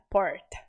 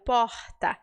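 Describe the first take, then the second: First: The R is curled, American-like. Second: The R is a breathy aspirated sound.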